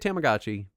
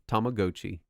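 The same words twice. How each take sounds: First: The word is said the common, everyday way. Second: The word is said the original, careful way. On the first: This is how most people say it. The speaker calls it wrong. "Most people say Tamagotchi" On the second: This is the technically correct form. The speaker calls it right. "is technically Tamagotchi"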